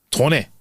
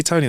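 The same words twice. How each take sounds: First: "Tony" tried in a Scottish accent. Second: Said in the usual way. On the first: Shown as a demonstration. Host trying out Tony's name, attempted Scottish accent. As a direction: attempt a Scottish "Tony" with a changed first vowel. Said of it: "in a Scottish accent there". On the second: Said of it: "How do I say Tony th-, in a Scottish accent".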